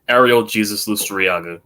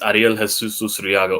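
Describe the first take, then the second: First: The name is said with English pronunciation. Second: The name is said with Spanish pronunciation. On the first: "or in English terms" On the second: "My real name is"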